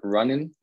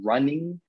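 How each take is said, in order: First: The word ends with a shortened -in sound. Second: The word ends with a full -ing sound. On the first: It sounds less formal and more natural. "to sound a little bit less formal and a little bit more natural" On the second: It sounds more formal. "putting the ing"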